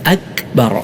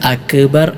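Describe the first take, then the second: First: The k sound has no echoing bounce. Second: The k sound has an echoing bounce. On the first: The speaker calls it right. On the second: The speaker calls it wrong.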